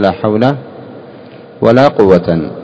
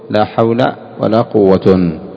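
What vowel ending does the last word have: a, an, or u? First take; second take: an; u. First: The last word ends with 'an'. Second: The last word ends with 'un'. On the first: "والنصب، كيف تقول" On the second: "والرفع، كيف تقول"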